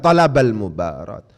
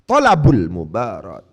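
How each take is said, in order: First: The first word ends in an a vowel. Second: The first word ends in a u vowel. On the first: The speaker calls it wrong. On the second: The speaker calls it right. "harus dibaca rofa"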